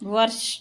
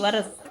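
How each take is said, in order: First: The consonant cluster is said joined together. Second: The consonant cluster is split apart by a vowel. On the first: The speaker calls it right. "ભેગું બોલવાનું" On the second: The speaker calls it wrong. "નહીં"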